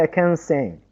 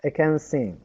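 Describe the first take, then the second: First: The word 'can' is short with a schwa. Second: The word 'can' is short with a schwa.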